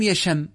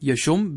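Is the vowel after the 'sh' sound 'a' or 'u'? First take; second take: a; u. First: The vowel after the sh sound is a. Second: The vowel after the sh sound is u. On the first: This is the more eloquent standard form. The speaker calls it right. "بفتح الشين، هذا هو الأفصح" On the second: This is a rare variant used in colloquial speech. The speaker calls it wrong. "كما نقول نحن في العامية، يشم بالضم"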